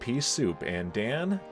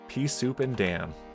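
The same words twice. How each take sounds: First: The phrase is read with odd, awkward inflection. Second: The phrase is read smoothly as one unit.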